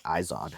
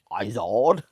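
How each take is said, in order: First: Said in the usual way. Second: "Izod" as "EYE-zod" with a quirky rising tune; odd pronunciation. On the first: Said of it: "I've always just said it that way". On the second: Shown as a demonstration. Poking fun at himself for viewers, "Izod" with a quirky rise. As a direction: repeat "Izod" in that funny rising way. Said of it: "I don't know why I said it like that".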